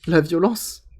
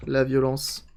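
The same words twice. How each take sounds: First: Slow, amused laughing delivery. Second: Said in the usual way. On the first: Real, not acted. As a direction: savour it through a laugh. Laughs, then repeats the phrase.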